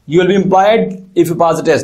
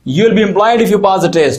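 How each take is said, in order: First: There is a pause before 'if'. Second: It is said continuously without a pause.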